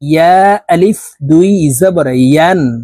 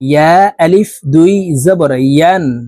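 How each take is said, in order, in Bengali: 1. শেষ সিলেবলটি ইয় ধ্বনি দিয়ে শুরু হয়। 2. শেষ সিলেবলটি ইয় ধ্বনি দিয়ে শুরু হয়।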